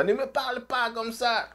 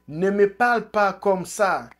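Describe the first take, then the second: First: Higher, hammed-up scolding voice "Ne me parle pas comme ça"; higher mock rebuke in Eto'o's voice; Eto'o impression. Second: Mock yell. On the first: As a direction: mimic a bossy president telling someone off. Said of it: "il faut être comme ça". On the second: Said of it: "Eto'o crie".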